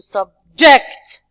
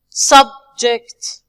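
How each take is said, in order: First: The stress is on the second syllable. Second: The stress is on the first syllable. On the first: It is used as a verb. "So we are stressing the second part" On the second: It is used as a noun. "when we move to the nouns and adjective, we say"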